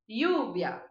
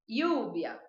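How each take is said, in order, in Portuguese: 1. O ll é falado como um som de i. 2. O ll é falado como um som de i.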